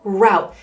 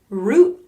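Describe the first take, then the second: First: The vowel sounds like the one in out. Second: The vowel sounds like the one in boot. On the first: "a lot of people say route" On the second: "You can say root or route"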